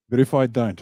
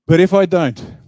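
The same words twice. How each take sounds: First: Said in the usual way. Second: Loud, high and punchy; emphatic outburst. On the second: Real, not acted. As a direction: hit it hard to grab the room.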